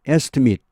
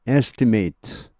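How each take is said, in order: First: The final syllable is short and light. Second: The final syllable is long and heavy. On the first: It is used as a noun. "이게 이제 명사가 되면요. / 뒤 발음이 좀 짧아지죠" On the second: It is used as a verb. "동사가 되면 뒤쪽이 발음이 무겁고 또 발음이 길어집니다"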